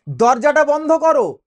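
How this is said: It is said as a firm order.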